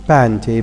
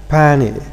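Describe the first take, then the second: First: The t after n is clearly pronounced. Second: The t after n is left out. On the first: "not panty" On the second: "they pronounce it as panny"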